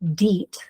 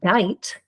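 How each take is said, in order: First: The vowels are read as one long E. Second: The vowels are read as one long I. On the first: "I E says E" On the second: "or I"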